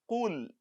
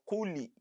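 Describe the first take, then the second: First: The word ends on the 'l' sound, no vowel. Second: The 'l' sound is followed by an 'i' vowel. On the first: The speaker calls it right. "the lam is carrying sukun" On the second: The speaker calls it wrong. "do not pronounce as kuli"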